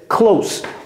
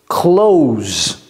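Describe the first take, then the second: First: The word ends with a hissing s sound. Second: The word ends with a buzzing z sound. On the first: Near or intimate. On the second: To shut something.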